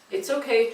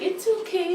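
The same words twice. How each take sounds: First: It is said in a calm, even, steady voice. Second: It is said in a high, cooing baby voice. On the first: It tells the animal there is nothing to fear. The speaker calls it right. "in a calm voice" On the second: It rewards the animal's bad behavior. The speaker calls it wrong. "the baby voice"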